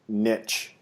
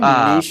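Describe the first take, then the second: First: The word is said the American way. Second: The word is said the Canadian way. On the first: "niche is American" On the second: "I think niche is Canadian"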